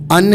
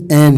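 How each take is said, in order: First: ان with a short reduced vowel; ان clipped to a schwa-like un; weak form of an. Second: این with a full clear e vowel; این as a long stressed en; strong form of an. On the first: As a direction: say ان lightly, unstressed. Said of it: "ویک تلفظ". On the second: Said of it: "strong تلفظ این ہے". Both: Shown as a demonstration.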